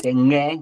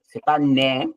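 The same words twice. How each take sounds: First: "ŋe" said with a back ng, rising; "ŋe" sounded like the ng of "sing" plus e; correct sound. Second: "né" said with a plain n, stress on "pas"; "né" with an ordinary French n, rising; wrong sound shown. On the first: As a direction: stress the velar ng in "ŋe". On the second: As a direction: demonstrate the plain n of "né" as the error. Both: Shown as a demonstration.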